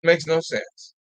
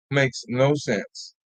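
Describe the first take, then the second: First: Said in the usual way. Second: Very slow and a little softer; slow disbelieving repeat. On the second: Real, not acted. Host repeating to absent viewers, slow and soft. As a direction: let it sink in, word by word.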